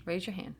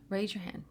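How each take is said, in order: Both takes have the same delivery.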